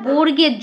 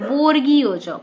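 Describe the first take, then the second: First: The term is said as 'borgerjo'. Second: The term is said as 'borgiyo jo'. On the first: The speaker calls it wrong. "কথাটা বর্গের্য না" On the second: The speaker calls it right. "কথাটা হচ্ছে বর্গীয়জ"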